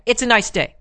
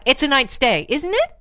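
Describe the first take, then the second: First: "It's a nice day" stated plainly with a falling end; "It's a nice day" in an even, final tone; flat-out declarative. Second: "isn't it" rising high as a tag question; tentative "It's a nice day" with a high rise on "isn't it"; upward inflection. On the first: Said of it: "flat out". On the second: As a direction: lift "isn't it" right up, seeking agreement. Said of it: "they use upward inflections". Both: Shown as a demonstration.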